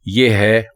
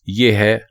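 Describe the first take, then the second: The two takes are said the same way.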